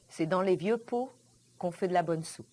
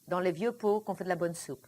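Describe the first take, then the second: First: It is said very slowly. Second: It is said at normal speed.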